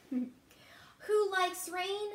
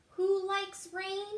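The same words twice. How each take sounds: First: Slow sing-song. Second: Said in the usual way. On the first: Acted. Refrain read to children.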